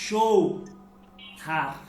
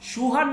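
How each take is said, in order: First: The first vowel is a gliding 'ow' sound. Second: The first vowel is a plain 'oo' sound. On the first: The speaker calls it right. "সৌহার উচ্চারণটা কিন্তু এইভাবে" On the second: The speaker calls it wrong. "সুহার না"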